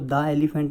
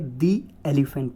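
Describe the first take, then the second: First: 'The' is said with a short 'thuh' sound. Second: 'The' is said with a long 'thee' sound. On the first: The speaker calls it wrong. "द elephant नहीं बोलेंगे" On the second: The speaker calls it right. "दी elephant बोलेंगे"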